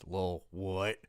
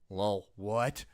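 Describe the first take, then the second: First: It is said in a heavy, deep put-on voice. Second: It is said in an ordinary, unaltered voice.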